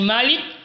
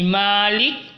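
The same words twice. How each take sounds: First: The first vowel is kept short. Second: The first vowel is held long. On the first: It means king. "dibaca dengan bacaan pendek" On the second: It means owner. "dibaca dengan bacaan yang panjang"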